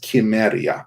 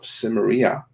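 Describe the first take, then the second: First: The word begins with a hard k sound. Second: The word begins with a soft s sound. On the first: This is how it was originally said. The speaker calls it right. "the proper historically correct pronunciation" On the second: This is the usual modern English way. The speaker calls it wrong. "we kind of say it incorrectly"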